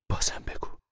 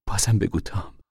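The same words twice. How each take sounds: First: Hushed plea; whisper. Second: Said in the usual way. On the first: Acted. Mother begging son to go on, whispering. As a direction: breathe the request.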